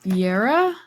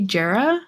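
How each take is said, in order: First: The word begins with a Y sound. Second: The word begins with a J sound. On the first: The speaker calls it right. "with a Y sound" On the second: The speaker calls it wrong. "I don't know how to pronounce it, but it's J E R A"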